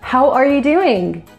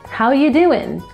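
First: Said in a standard accent with every word pronounced. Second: Said in a Southern accent with reduced sounds. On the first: "in standard English, someone would say" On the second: "in the South, in the United States ... They just removed the R and dropped the G"

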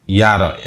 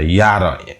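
First: The first syllable begins with a y sound. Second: The first syllable begins with a y sound.

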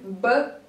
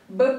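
First: The sounds are listed at a moderate pace. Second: The sounds are listed at a quicker pace. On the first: "Вместе со мной" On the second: "А теперь быстрее"

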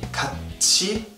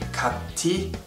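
First: The middle consonant is a ch sound. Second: The middle consonant is a plain t sound. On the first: The speaker calls it right. "that tiet will sound like chiet" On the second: The speaker calls it wrong. "You don't say"

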